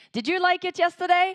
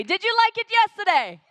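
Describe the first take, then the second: First: Loud, high call out to the crowd; hyping the crowd. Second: Even higher and louder shouted question; full shout to the crowd. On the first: MC firing up five hundred girls, loud and high. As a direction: rev up the room with a big question. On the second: MC demanding a bigger cheer, shouting high. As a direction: really shout it to get the room going. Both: Real, not acted. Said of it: "You were screaming much better yesterday".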